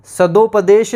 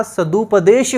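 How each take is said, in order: First: सदुपदेश with an o after द; o-sound in सदुपदेश; wrong form. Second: सदुपदेश with a u after द; correct form. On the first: Teacher repeating the wrong o-form to students. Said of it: "सदुपदेश नहीं होता". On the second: Teacher repeating the correct u-form to students. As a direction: clear u in सदुपदेश. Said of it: "सदुपदेश होता है". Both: Shown as a demonstration.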